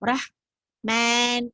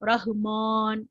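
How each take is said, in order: First: The long vowel is tilted toward an e sound. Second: The long vowel is kept open and straight. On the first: The speaker calls it wrong. "இப்படி சாக்க கூடாது" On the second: The speaker calls it right. "மான் இல்ல, ரஹ்மான்"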